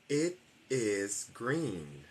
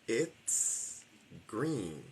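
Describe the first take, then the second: First: It and is are two separate full words. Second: It and is merge into one short syllable.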